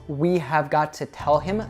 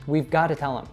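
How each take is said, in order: First: Each word is said fully and separately. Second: The words are reduced and run together.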